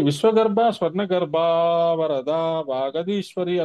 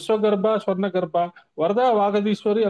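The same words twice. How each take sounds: First: A long vowel runs straight into 'varada'. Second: There is a clear break before 'varada'. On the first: The name can also be heard as avarada. "అప్పుడు అవరదాయే నమః అని కూడా అర్థం వస్తుంది" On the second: The name is heard as plain varada. "ఉత్త వరదాయే నమః అని వస్తుంది"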